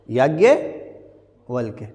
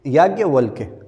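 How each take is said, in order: First: याज्ञवल्क्य said very slowly, syllable by syllable; slow spelling-out. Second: Said in the usual way. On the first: Shown as a demonstration. Teacher spelling याज्ञवल्क्य for the class, slow and syllable by syllable. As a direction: draw out याज्ञवल्क्य so pupils hear each sound.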